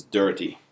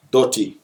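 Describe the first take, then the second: First: "dirty" with an er vowel; English pronunciation. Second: "dirty" as dotty, with an o vowel; higher Jamaican "dirty", no r, like dotty; patois pronunciation. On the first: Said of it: "in English is". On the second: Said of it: "the correct way to say that". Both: Shown as a demonstration.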